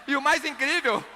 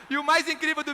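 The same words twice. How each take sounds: The two takes are said the same way.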